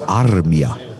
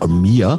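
First: The name is said with a Finnish pronunciation. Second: The name is said with an American pronunciation. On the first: This is how the player's name is really said. The speaker calls it right. "aber mir wurde dann erzählt, der heißt Armia" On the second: This is how the name is said in America. The speaker calls it wrong. "in Amerika, die völlig bekloppt sagen immer Armia"

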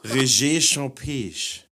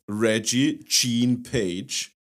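First: The name is said with a French accent. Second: The name is said with an American accent. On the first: "Oder der hiesige Baguette-Verkäufer"

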